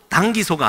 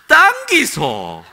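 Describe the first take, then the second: First: It is said plainly, in standard Seoul speech. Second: It is said with a thick Gyeongsang dialect tune.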